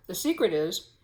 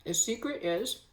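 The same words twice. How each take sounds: First: Said in the usual way. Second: Talking while eating; words round a mouthful of food; mouth full. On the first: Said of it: "excuse me for talking with my mouth full". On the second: Real, not acted. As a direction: talk through a bite of scone. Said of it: "talking with my mouth full".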